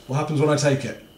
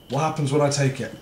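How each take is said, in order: Both takes have the same delivery.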